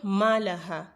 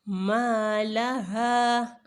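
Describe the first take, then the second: First: The vowel after m is kept short. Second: The vowel after m is lengthened. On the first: The speaker calls it wrong. "not malaha" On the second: The speaker calls it right. "because of the mud in front of the ma"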